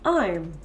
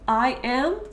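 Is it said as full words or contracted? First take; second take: contracted; full. First: The two words merge into one short syllable. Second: The two words are said separately in full.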